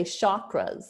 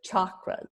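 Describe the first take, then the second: First: "chakras" said with sh, as shakras; "chakras" starting like shock; common mispronunciation. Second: "chakras" with a hard ch, as in chalk; "chakras" starting like chalk; correct ch. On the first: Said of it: "some people say chakras". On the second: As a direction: start "chakras" with a crisp tch sound. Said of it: "but they're chakras". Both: Shown as a demonstration.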